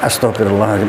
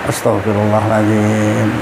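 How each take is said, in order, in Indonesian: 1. Frasa itu diucapkan cepat dan terburu-buru. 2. Frasa itu diucapkan pelan dan hati-hati. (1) "Jangan astagfirullahaladzim" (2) "Pelan-pelan bacanya"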